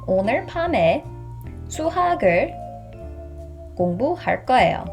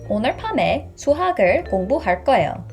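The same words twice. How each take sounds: First: The sentence is spoken at a slow pace. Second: The sentence is spoken at a fast pace. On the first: "the second time I will say it much slower" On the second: "The first time I will say fast"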